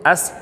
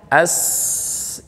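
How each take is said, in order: First: The s sound is cut short. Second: The s sound is held long and flowing. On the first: The speaker calls it wrong. "itu kurang" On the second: The speaker calls it right. "nah itu mengalir"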